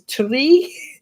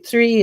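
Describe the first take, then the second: First: The word starts with a t sound. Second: The word starts with a th sound.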